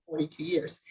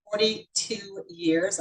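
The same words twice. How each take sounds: First: Said in the usual way. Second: Forty-two years drawn out very slowly; super slow. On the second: Real, not acted. Consultant telling guests her long tenure, super slow. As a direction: stretch out each word for emphasis. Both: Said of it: "I say that super slow".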